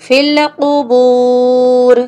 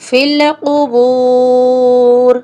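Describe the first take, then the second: No difference in how they are said.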